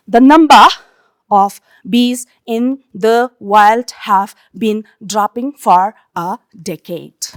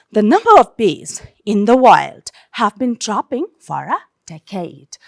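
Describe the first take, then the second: First: "The number of bees in the wild" chopped word by word; monotonous word-by-word reading. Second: "The number of bees / in the wild" in flowing phrases; smooth, expressive phrasing. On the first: Teacher showing students a boring reading, monotonous word by word. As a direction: read "dropping for a decade" one separate word at a time. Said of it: "word by word".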